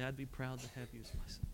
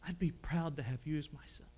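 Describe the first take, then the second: First: Very soft, near breaking on "son"; tearful, hushed. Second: Much softer, a hint of tears in "proud"; tearful, choked up. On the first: Retold or imitated. Preacher recalling Brother Jack's blessing, hushed and tearful. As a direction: let it fall to almost nothing. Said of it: "with tears in his eyes". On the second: Brother Jack to young Paul, choked up and soft. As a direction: retell a crying man's words gently. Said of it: "he's crying".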